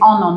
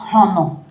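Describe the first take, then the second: First: The word starts without an H sound. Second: The word starts with an H sound. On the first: The speaker calls it right. "the H is a silent H" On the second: The speaker calls it wrong. "not honor"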